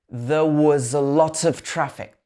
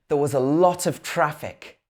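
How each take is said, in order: Both takes have the same delivery.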